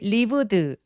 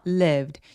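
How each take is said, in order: First: The word is split into three syllables. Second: The word is said as one syllable. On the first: The speaker calls it wrong. "lived 아니고요" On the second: The speaker calls it right. "얘는 이름절짜리 소리예요. 소리가 하나란 뜻이에요"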